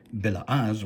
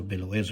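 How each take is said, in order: First: BELA'AZ said with an "az" ending; first pronunciation variant. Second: BELOEZ said with an "ez" ending; alternative pronunciation. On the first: Scholar citing Rashi's term, Bela'az pronounced with "az". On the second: Scholar offering the other reading, Beloez pronounced with "ez". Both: Shown as a demonstration. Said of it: "or Beloez if you prefer".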